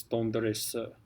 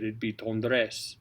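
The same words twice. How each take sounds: First: Sung, "tendresse" with a schwa on the final e; "tendresse" sung, ending on a schwa; sung French. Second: "tendresse" spoken, final e silent; spoken "tendresse", final e dropped; spoken French. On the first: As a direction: sing "tendresse" and let the end sound as a schwa. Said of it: "because we have a note there". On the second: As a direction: say "tendresse" as in speech, no schwa at the end. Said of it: "it's not gonna be pronounced if you speak it". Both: Shown as a demonstration.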